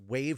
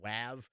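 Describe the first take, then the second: First: It is said exactly like the word wave. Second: It is said differently from the word wave. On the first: The speaker calls it right. "I call it Wave" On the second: The speaker calls it wrong. "I don't call it WAV or WAV. It just sounds really silly"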